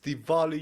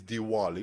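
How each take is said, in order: First: The middle consonant is a v sound. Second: The middle consonant is a w sound. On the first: "I say it's Diwali" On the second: "you say it's Diwali"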